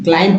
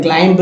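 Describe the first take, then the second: First: क्लाइंब ending on m, no b sound; silent b. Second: क्लाइंब with an audible b after the m; sounded b. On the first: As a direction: say क्लाइंब as "klaim", leaving the b silent. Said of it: "सिर्फ बी silent है". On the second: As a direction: say क्लाइंब as "klaimb", voicing the final b. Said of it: "नहीं". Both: Shown as a demonstration.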